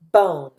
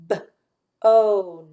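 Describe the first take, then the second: First: Said in the usual way. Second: B-O-N as a short b, then drawn-out oh-n; sounded out. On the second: Shown as a demonstration. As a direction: split B-O-N after the b and stretch the rest. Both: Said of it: "listen to those sounds".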